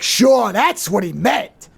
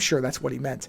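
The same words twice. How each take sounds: First: It is said in an angry, emphatic tone. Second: It is said in a calm, mild tone. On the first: The speaker doubts the explanation and is annoyed. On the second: The speaker accepts the explanation.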